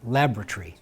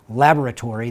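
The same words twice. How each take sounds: First: It is said with a British pronunciation. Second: It is said without a British pronunciation. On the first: "It's like British, ... they say laboratory" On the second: "instead of saying laboratory"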